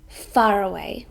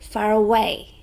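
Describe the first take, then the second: First: The stress is on the first syllable, far. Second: The stress is on the third syllable, way.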